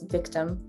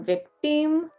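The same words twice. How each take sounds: First: The second vowel is a short reduced uh. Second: The second vowel is full and stretched out. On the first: "international accent, the second I is a U sound" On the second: "normally we would pronounce this as victim or victim, really stretching out that I"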